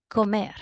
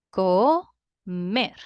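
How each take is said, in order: First: Said in the usual way. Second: "Comer" loudly in two pieces, co-mer; split into syllables. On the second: Shown as a demonstration. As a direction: pause between "Co" and "mer". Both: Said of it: "Two syllables".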